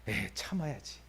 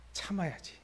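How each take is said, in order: First: Soft, under the breath self-restraint; calm yourself down quietly after the outburst; holding it in. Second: Soft, quiet self-restraint; holding it in. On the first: God swallowing his anger at his people, soft self-talk. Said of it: "화나려고 하다가". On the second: God reining in his anger again, soft self-talk. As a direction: talk yourself down, barely aloud. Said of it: "으아 하다가". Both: Pretend.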